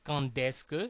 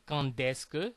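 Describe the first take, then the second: First: Quand links to the next word with a d sound. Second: The same.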